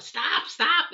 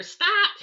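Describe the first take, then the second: First: Raised, higher call of stop; calling out over the mower noise; retold yell. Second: Sharp shout of stop, much higher and louder; retold yell. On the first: Yelling at the mower helper, raised and higher. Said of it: "I'm yelling out". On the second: Shouting to her daughter to stop the mower, loud and high. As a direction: shout it across the yard at full force. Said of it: "I'm telling my daughter".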